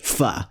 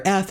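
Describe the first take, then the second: First: "f" with top teeth on lower lip, then ah; English f. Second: "f" blown between both lips, with an ah after it; bilabial voiceless fricative. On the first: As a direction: say "f" the ordinary English way. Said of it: "get away with the English f". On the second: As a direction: puff air through loose lips for "f". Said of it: "pronounced as the bilabial voiceless fricative". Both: Shown as a demonstration.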